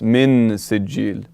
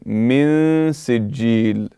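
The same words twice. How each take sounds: First: The n sound is clearly pronounced. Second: The n sound is hidden and nasalized. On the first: The speaker calls it wrong. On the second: The speaker calls it right. "I did not say حرف النون. Again, I done إخفاء"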